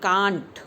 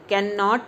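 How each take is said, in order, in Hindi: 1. एक छोटा, संकुचित शब्दांश। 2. दो पूरे शब्द, can और not। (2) "कैन नॉट नहीं बोलेंगे"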